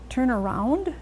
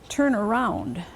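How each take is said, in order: First: The pitch rises at the end. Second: The pitch falls at the end. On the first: It is a question. "if you let your pitch rise at the end ... you're asking a question" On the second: It is a statement. "They end in a pitch fall"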